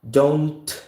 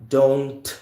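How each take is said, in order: First: The final T is audibly released. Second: The final T is audibly released.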